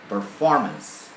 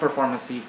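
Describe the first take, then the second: First: It ends on the consonant with no extra vowel. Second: An extra E vowel is added at the end. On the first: The speaker calls it right. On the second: The speaker calls it wrong.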